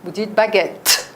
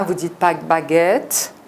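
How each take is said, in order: First: Baguette dit vite, petite accélération sur le double T; « baguette » avec une accélération sur les deux T; bonne prononciation. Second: Baguette dit lentement, consonnes doublées appuyées; mauvaise prononciation. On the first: (« baguette » prononcé à la française) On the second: (« baguette » sans accélération, comme les Brésiliens) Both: Shown as a demonstration.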